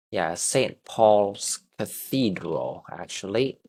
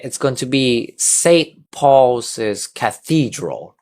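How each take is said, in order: First: "Saint Paul's Cathedral" said slowly with "Saint" in full; slow teacher model of "Saint Paul's Cathedral"; model pronunciation. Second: "Saint Paul's Cathedral" slow and clear, each word distinct; slow model for the class to copy; model reading. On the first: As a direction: read it out slowly, saint spelled out. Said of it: "it's actually short for saint". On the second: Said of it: "So if we read it". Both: Shown as a demonstration.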